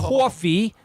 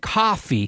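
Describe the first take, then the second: First: The vowel has an old New York-style sound. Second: The vowel has a plain, standard sound. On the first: This is the traditional local way. "Instead of saying" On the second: This is how kids are taught now. "they're saying coffee"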